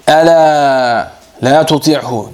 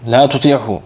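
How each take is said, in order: First: Ela la tuti'hu drawn out slowly, each word weighted, ela leaned on; teacher slowly spelling out the key Arabic phrase Ela la tuti'hu; slow and stressed. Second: Said in the usual way. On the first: Shown as a demonstration. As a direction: stretch Ela la tuti'hu out word by word so the class hears it. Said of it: "Dikkat et". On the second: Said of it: "Bak önemli bir şey söylüyorum".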